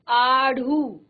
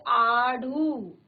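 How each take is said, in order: First: The middle flap consonant is aspirated. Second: The middle flap consonant is aspirated.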